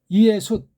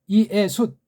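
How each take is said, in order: No difference in how they are said.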